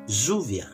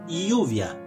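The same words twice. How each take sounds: First: The double L sounds like a zh. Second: The double L sounds like a y. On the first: This is how it is said in the capital of Argentina. "Bunyi Z" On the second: This is how it is said in the speaker's home province. "Kalau di provinsi tempat saya tinggal, kami menyebutnya lluvia"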